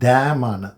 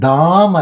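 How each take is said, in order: First: The vowel is a fronter 'eh' sound. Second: The vowel is an open 'ah' sound. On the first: The speaker calls it right. "ആ അല്ല, എ ആണ്" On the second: The speaker calls it wrong. "ഡാം അല്ല"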